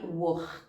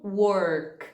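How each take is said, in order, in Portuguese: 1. O R é um R carioca, gutural. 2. O R é um R mineiro enrolado. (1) "Se você é um aluno do Rio de Janeiro ... você de vez em quando fale work" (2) "um mineiro ... Porque o R de Minas costuma ser esse er"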